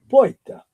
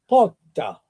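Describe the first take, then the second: First: The r before t becomes an i sound. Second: The r before t becomes a double t. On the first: "If you go to Palermo, they will pronounce it poita" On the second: "But if you go to Catania, they would say potta, two T's"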